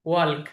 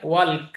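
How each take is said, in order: First: The L sound is pronounced in the word. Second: The L sound is pronounced in the word.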